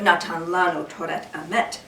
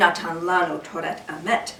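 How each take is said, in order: First: Sephardic pronunciation, with t sounds throughout. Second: Sephardic pronunciation, with t sounds throughout.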